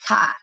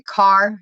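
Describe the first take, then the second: First: "car" as "kah", East Coast R dropped; imitated East Coast accent. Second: Said in the usual way. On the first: Showing friend how they say car, imitated East Coast accent. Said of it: "you say, you say, like". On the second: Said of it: "you say, like, "ka".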